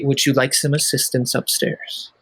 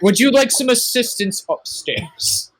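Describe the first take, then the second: First: The offer sounds plain and sincere. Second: The offer sounds condescending and talking down. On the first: The listener is offered help respectfully. The speaker calls it right. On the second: The listener is treated as helpless. The speaker calls it wrong.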